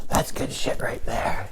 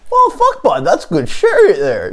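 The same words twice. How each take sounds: First: Slow, hushed near-whisper; cool made-up voice. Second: High-pitched joke voice; supposed real voice. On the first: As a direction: drop to a soft, drawn-out whisper. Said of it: "imagine that's what my voice sounded like". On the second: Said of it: "that's what my real voice sounds like". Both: Acted.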